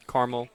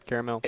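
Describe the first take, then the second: First: CARAMEL said as "KAR-mel"; CARAMEL in two syllables, like Carmel. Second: CARAMEL said as "KAIR-uh-mel"; CARAMEL in three syllables. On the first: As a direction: drop the second A of CARAMEL. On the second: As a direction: sound the middle vowel of CARAMEL. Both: Shown as a demonstration. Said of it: "I kinda interchange it".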